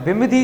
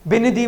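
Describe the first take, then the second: First: The nasal is pronounced as an m sound. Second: The nasal is pronounced as an n sound. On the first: The speaker calls it wrong. "बिमधी नहीं बोल रहे इसको" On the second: The speaker calls it right. "बिनदी बोल रहे हैं"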